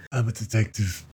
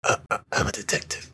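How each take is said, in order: First: An accidental hint of Trump; Donald Trump voice. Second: Light woman's voice doing Batman; lightly voiced woman doing a Batman growl; man doing a woman's voice. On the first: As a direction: drift into a light Trump impression. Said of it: "that sounded like Donald Trump". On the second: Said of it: "can you do that in your woman voice".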